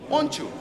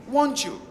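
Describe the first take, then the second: Both takes have the same delivery.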